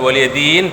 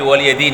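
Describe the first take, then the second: First: The word ends on a bare consonant. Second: The word ends on a short vowel. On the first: The speaker calls it wrong. "bukan waliyadin sukun" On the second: The speaker calls it right. "tapi waliyadini asalnya dini"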